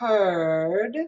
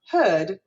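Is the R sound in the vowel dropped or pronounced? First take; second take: pronounced; dropped. First: The vowel is R-colored with a hooked R. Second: The vowel has no R color at all. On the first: "where I'm going to hook my R" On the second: "Or in a British way, where they wouldn't pronounce that hooked R"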